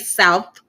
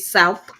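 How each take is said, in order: First: The word ends with a TH sound. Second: The word ends with an F sound. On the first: "I didn't say South" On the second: "I said South. ... with the F"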